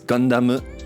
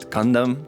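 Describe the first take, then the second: First: The word ends with an added u vowel. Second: The word ends on a closed m sound. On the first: The speaker calls it right. "Gundam with the U at the end" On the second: The speaker calls it wrong. "it's not Gundam"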